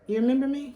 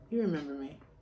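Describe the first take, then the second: First: The voice rises at the end. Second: The voice falls at the end. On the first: It asks whether the listener remembers. "a question" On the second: It asserts that the listener remembers. "a statement"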